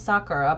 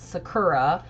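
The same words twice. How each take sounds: First: The name is said in a Japanese way. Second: The name is said in an English way. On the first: This is the original name. "they kept her name Sakura" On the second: This is how the dub said it. "but they pronounced it Sakura"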